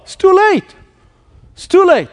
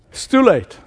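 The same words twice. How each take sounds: First: High, despairing inner voice; despairing thought. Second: Said in the usual way. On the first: Retold or imitated. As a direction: cry it out high like all hope is gone. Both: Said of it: "How many times have you thought".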